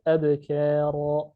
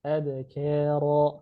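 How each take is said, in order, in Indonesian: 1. Bunyi k itu tipis dan ringan. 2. Bunyi k itu tipis dan ringan.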